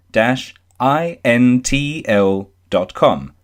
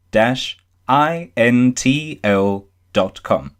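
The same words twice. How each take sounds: The two takes are said the same way.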